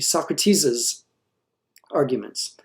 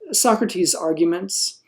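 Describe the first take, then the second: First: The possessive adds an extra z syllable. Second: The possessive adds no extra syllable. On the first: The speaker calls it wrong. "if I add an apostrophe S" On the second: The speaker calls it right. "would be the appropriate way"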